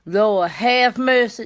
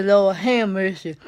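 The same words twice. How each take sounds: First: Said in the usual way. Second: "Lord, have mercy" stretched with a long hum on "have", like someone hungry; drawled Lord have mercy. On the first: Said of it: "instead of saying". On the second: Shown as a demonstration. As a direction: hum out "have" as if craving food. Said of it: "Like somebody hungry".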